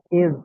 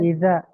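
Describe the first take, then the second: First: The word ends on a bare consonant. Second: The word ends with an added vowel. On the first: The speaker calls it right. "Zalnya sukun masuk ke go" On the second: The speaker calls it wrong. "Bukan iza"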